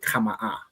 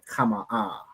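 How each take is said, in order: First: The ending is short and clipped. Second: The ending is drawn out and soft. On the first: "opposed to" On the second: "a bit more dragged out, a bit more softer at the end"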